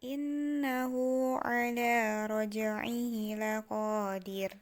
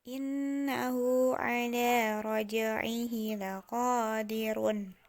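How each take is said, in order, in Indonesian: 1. Kata terakhir berakhir pada r mati. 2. Kata terakhir berakhir dengan vokal dan n.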